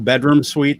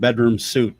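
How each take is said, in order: First: The last word sounds like 'sweet'. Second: The last word sounds like 'suit'. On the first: "That's not called the bedroom suite" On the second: "That's called the bedroom suit"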